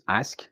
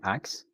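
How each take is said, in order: First: The word ends with an 'sk' sound. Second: The word ends with a 'ks' sound. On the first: "ask becoming ax" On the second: "ask becoming ax"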